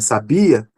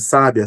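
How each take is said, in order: First: The stress is on the syllable 'bi'. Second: The stress is not on the syllable 'bi'.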